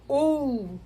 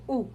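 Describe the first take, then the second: First: "u" lifted higher and held long; raised U. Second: Said in the usual way. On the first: Shown as a demonstration. Teacher contrasting U with L against bare U, raised and drawn out. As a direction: give "u" a long, raised swell. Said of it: "Dá essa elevada". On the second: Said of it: "Se fosse só o u".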